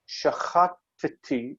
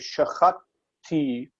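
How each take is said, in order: First: A short vowel separates the two T sounds. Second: The two T sounds come right together. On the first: The speaker calls it right. "we make that, that shva vocal" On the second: The speaker calls it wrong. "It's hard to say"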